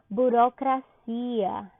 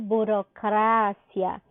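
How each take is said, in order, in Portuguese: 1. A tônica cai onde o português a coloca. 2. A tônica cai onde o espanhol a coloca.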